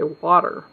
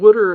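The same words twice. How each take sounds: First: It is said in a general American accent. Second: It is said in a Pennsylvanian accent.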